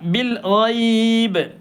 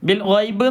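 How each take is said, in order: First: The vowel in ghaib is held extra long. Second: The vowel in ghaib is kept short. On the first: The speaker calls it right. "സാധാരണ നീട്ടുന്നതിലേറെ ഒന്ന് നീട്ടുക" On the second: The speaker calls it wrong. "എന്നല്ല"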